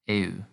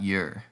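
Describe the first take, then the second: First: Both vowels e and u are pronounced. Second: It is said as one English 'you' sound. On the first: The speaker calls it right. "We have to pronounce both vowels at the beginning" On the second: The speaker calls it wrong. "It's not your"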